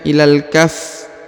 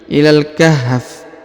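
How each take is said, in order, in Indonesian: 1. Bunyi h sebelum f akhir tidak terdengar. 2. Terdengar jelas bunyi h sebelum f akhir. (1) "Jangan ilal kaf" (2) "tapi ilal kahf. Ada H-nya ya"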